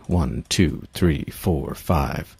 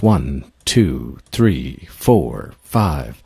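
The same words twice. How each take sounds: First: It is counted at a fast pace. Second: It is counted at a medium pace.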